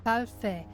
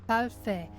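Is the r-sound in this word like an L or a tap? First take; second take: tap; tap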